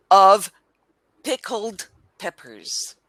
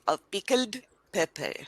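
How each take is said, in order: First: "Of pickled peppers" slowly, word by word, r sounded; "Of pickled peppers" spaced out for a learner; pronunciation model. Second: Put-on "Of pickled pepper" softer, Indian accent, final r dropped; Indian-style "Of pickled pepper" with unpuffed p's; imitated Indian accent. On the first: Shown as a demonstration. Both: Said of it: "You say".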